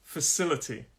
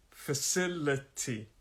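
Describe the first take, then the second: First: Said in the usual way. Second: "Facility" slowly, in four separate syllables. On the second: Shown as a demonstration. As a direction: spell out "Facility" by ear, softer and slow. Teacher breaks word into syllables.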